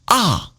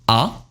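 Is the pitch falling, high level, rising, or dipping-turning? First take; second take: falling; rising. First: The pitch falls sharply from high to low. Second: The pitch rises from middle to high. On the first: "And fourth tone falling" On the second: "Second tone rising"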